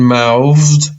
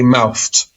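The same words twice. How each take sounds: First: The 'th' sound is voiced, like a V. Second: The 'th' sound is voiceless, like an F. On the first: "this word will sometimes sound like a V" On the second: "Sometimes it sounds like an F"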